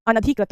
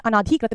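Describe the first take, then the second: First: अनधिकृत with a short "na"; अनधिकृत, second a kept short; correct short a. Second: अनाधिकृत with a long "naa"; अनाधिकृत, second a held long; wrong long a. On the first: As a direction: say अनधिकृत as "ana-dhikrit". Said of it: "अनधिकृत होता है". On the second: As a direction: say अनाधिकृत as "anaa-dhikrit". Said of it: "अनाधिकृत नहीं होता". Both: Shown as a demonstration.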